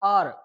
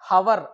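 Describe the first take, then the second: First: The word starts with a vowel sound. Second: The word starts with an h sound. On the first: The speaker calls it right. "ఇక్కడ హెచ్ అనేది silent" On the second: The speaker calls it wrong. "దీన్ని చాలా మంది హవర్ అంటారు"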